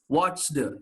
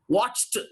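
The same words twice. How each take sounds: First: The ending is a voiced d sound. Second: The ending is a voiceless t sound. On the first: The speaker calls it wrong. "You should not pronounce" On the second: The speaker calls it right. "This is how you have to pronounce"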